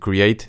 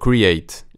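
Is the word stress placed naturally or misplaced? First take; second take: natural; misplaced. First: The stress falls on the expected syllable. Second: The stress falls on an unexpected syllable. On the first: The speaker calls it right. "en vez de decir create" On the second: The speaker calls it wrong. "Lo acentúo en el lugar equivocado"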